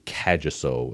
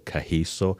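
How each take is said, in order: First: The middle consonant is a hard g sound. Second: The middle consonant is a soft breathy sound. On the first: This is how others commonly say the name. The speaker calls it wrong. "people will say Kagiso" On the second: This is how the name is really said. The speaker calls it right. "it's actually Kahiso"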